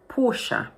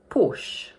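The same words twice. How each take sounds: First: The word is said with two syllables. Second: The word is said with one syllable. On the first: "In the original language, it's pronounced with two syllables" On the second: "in English, we pronounce it as one syllable only, like this"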